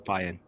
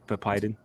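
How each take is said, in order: First: The name is pronounced in an altered way. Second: The name is pronounced in its usual way. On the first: The speaker calls it wrong. "I wanted to say" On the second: The speaker calls it right. "you said my name correctly"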